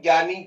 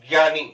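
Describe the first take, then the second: First: The word begins with a g-like sound. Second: The word begins with a j-like sound. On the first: The speaker calls it wrong. "इसका sound ज्ञानी गलत है" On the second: The speaker calls it right. "इसका वास्तविक उच्चारण होता है ज्ञानी"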